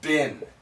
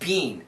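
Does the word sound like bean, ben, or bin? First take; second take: bin; bean. First: The vowel is short, like bin. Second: The vowel is long, like bean. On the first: "And sometimes it's bin" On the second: "she says bean. The first time, really bean"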